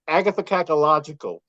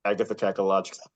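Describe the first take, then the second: First: "Agatha Cacalogical" slowly and clearly; careful, deliberate "Agatha Cacalogical". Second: Quick, low rattle of a tongue-twister word; "Agatha Cacalogical" rushed out quietly; quick run-through. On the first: Shown as a demonstration. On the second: Real, not acted. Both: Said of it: "Can you say it slowly".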